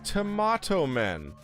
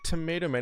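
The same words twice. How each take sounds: First: It is said in a British accent. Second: It is said in an American accent.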